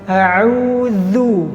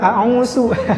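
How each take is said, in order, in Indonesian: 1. Konsonan tengahnya adalah th bersuara. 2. Konsonan tengahnya adalah s. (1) "yang benar adalah kita menggetarkan, meletakkan ujung lidah ke gigi seri bagian atas" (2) "diganti dengan sin juga"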